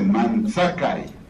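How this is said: The middle consonant is a ts sound. This is how northern speakers say it. "El norteño dice Manchakai, con TS"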